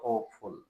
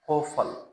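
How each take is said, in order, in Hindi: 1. अंतिम भाग एक पूरी 'full' ध्वनि है। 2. अंतिम भाग एक कमज़ोर, हल्की 'fl' ध्वनि है। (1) "नॉट ब्यूटीफुल और होपफुल, ये गलत प्रोनाउंस होंगे" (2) "उसमें हम फल"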